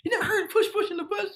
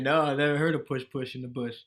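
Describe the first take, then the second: First: High, laughing disbelief as Leslie; Leslie amazed. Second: Said in the usual way. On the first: Retold or imitated. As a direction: squeal it in mock shock. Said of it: "And she said". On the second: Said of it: "I said".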